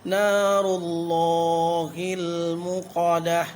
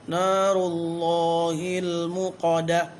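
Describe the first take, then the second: The two takes are said the same way.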